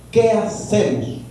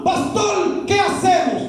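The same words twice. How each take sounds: First: Said in the usual way. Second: Higher, pleading question addressed to the pastor; a hint of a worried believer asking the pastor for help; imitating a worried congregant. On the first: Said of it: "cierro el signo de interrogación". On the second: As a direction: ask the pastor anxiously, pitch raised. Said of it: "abro un signo de interrogación".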